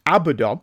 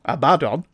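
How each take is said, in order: First: Abaddon said louder, last syllable given a full vowel; Abaddon pronunciation demo. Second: Abaddon loud, leaning on "BAD" as uh-BAD-on; Abaddon second attempt. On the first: Podcaster reads out a listener's correction, Abaddon carefully pronounced. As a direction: sound out Abaddon with a clear "don" at the end. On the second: Podcaster has a go at the corrected name, Abaddon firmly pronounced. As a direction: try Abaddon again as a-BAD-don. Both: Shown as a demonstration. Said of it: "emphasis on the last syllable".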